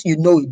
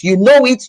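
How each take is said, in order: First: Said in the usual way. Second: KNOW raised and pushed; stressed know. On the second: Shown as a demonstration. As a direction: hit "know" high and firm.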